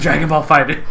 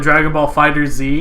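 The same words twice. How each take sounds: First: The Z is not sounded as a letter. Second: The Z is sounded as a separate letter. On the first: This is how the name is actually said. The speaker calls it right. "you don't even fucking pronounce it" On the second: This is how the speaker used to say it. The speaker calls it wrong. "Originally, I called it"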